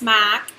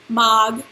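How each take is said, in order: First: The word ends between a g and a k. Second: The word ends with a clear g sound. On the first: The speaker calls it right. "it's kind of a G K sound" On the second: The speaker calls it wrong. "It's not mag"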